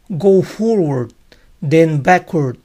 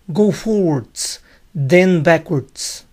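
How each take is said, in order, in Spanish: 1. Las palabras terminan sin sonido de s. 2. Las palabras terminan con sonido de s. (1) "en los Estados Unidos es más popular decirlas sin las S" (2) "una versión de estas palabras con S al final"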